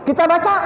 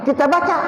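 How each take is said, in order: No difference in how they are said.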